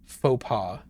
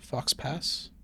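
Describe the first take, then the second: First: The final x and s sounds are silent. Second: The final x and s sounds are pronounced. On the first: The speaker calls it right. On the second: The speaker calls it wrong.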